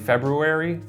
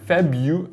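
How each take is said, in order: First: The first R sound is clearly pronounced. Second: The first R sound is dropped. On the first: "I always go for the R" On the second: "It's a sloppy word"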